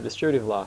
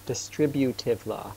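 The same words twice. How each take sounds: First: Said in the usual way. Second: "distributive law" said slowly, syllable by syllable; slow down and spell out each sound of "distributive law"; slower, clearer repeat. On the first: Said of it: "sometimes I talk a little bit fast". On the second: Real, not acted. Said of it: "Sorry, sometimes I talk a little bit fast".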